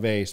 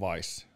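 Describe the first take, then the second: First: The vowel sounds like 'ay' in 'day'. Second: The vowel sounds like 'eye'. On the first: "kirjoitetaan Veis" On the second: "lausutaan Vice, vähän niin kuin Miami Vice"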